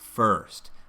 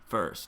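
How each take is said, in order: First: The vowel is said with an open, resonant mouth. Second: The vowel is said with a tight, closed mouth. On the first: The speaker calls it right. "a little more open space in the mouth to help that resonance" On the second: The speaker calls it wrong. "So instead of first"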